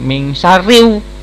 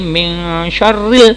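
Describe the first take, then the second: First: The L sound is merged away. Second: The L sound is pronounced clearly. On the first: The speaker calls it wrong. "bukan min syarriu, nggak bisa ya" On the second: The speaker calls it right. "Jadi min syarril"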